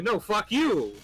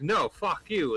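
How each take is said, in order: First: High-pitched rabbit retort; acted defiant comeback. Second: Raised-pitch bear retort; a mock-quarrel comeback, pitched up a little; acted defiant refusal. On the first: Rabbit throws the insult back at bear, higher and defiant. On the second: Bear refuses the rabbit his wishes, mock defiant.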